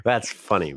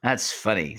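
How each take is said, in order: First: "funny" with the second syllable hit; stress on funny. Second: "funny" with its second syllable pushed; imitated stress on funny. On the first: Shown as a demonstration. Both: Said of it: "See how he hits that second syllable there on funny".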